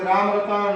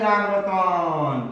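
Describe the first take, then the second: First: The vowels are held somewhat longer. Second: The vowels are stretched out very long. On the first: The call is still too weak to carry far. The speaker calls it wrong. "दीर्घ स्वर में बोलोगे" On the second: The call carries far enough to be heard. The speaker calls it right. "प्लुत स्वर में जब बोलोगे"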